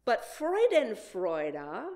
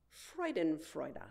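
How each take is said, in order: First: Freudenfreude said slowly and deliberately, FROY-den-FROY-duh; slow, careful Freudenfreude; careful pronunciation. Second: Freudenfreude repeated quietly with a falling close; soft repetition. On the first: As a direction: sound out Freudenfreude slowly for the congregation. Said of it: "is the feeling of joy or pleasure". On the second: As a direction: let Freudenfreude settle softly, as if savouring it. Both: Shown as a demonstration.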